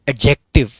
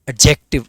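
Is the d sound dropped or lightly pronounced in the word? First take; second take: lightly pronounced; lightly pronounced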